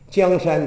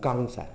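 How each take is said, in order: First: The first word begins with a j sound. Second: The first word begins with a g sound.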